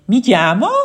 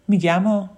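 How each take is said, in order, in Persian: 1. با لهجه اصفهانی گفته شده. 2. با لهجه معیار گفته شده. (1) "یه اصفهانی میخواد بگه میگم، میگه" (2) "میگم کلمه درستیه"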